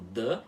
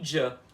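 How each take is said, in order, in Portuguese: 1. Um d simples, sem chiado. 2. Um som parecido com j, de chiado, depois do d. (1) "um D puro" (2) "um D chiado"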